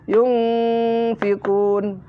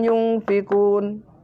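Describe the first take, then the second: First: The middle n sound is held with a brief pause. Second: The middle n sound passes quickly without a hold. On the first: The speaker calls it right. "Harus yunfiqun, harus ada jedahnya" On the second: The speaker calls it wrong. "tidak boleh ... Tidak pas"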